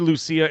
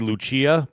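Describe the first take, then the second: First: The name is pronounced as in the video. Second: The name is pronounced in the heritage way. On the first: This is how the game's video says it. "they say Lucia in the video" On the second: This is how the speaker's own community says it. "my people would say Lucia"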